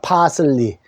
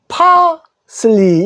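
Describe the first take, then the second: First: All syllables are said with even force. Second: The first syllable is loud, the rest short. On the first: "억양이 같습니다" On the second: "파를 크게 하고 뒤에를 슬리 짧게"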